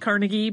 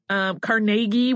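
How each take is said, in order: First: The name is said without a marked A vowel. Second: The name is said with a marked A vowel. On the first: "you'll hear it said Carnegie pretty frequently" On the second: "with more of an A sound"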